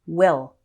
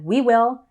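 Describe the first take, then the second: First: The first vowel is reduced, sounding like 'will'. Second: Both words are said fully and separately. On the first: "it often sounds like will"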